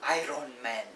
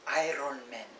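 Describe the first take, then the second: No difference in how they are said.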